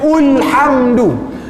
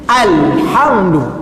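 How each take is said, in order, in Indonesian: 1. Kata itu diawali dengan vokal u. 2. Kata itu diawali dengan vokal a.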